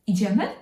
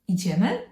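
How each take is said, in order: First: The pitch rises at the end of the word. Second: The pitch rises at the end of the word.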